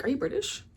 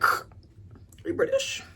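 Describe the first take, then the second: First: Higher, lightly mock-surprised query; surprised question. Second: Way higher, squeaky hammed-up question; exaggerated surprise. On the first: Telling viewers how she asked the guy, mildly surprised. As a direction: act out asking him, pitched up in curiosity. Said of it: "and I was like". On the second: Retelling asking the guy, hammed-up high surprise. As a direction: replay the question with big mock astonishment. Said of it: "I was like".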